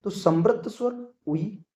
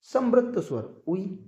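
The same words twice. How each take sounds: First: Said in the usual way. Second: Slow, deliberate repeat of the mnemonic Samrut स्वर उई; teacher drilling Samrut स्वर उई slowly for memory. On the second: Shown as a demonstration. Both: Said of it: "trick आपको इसकी याद आप रख सकते हैं उई से".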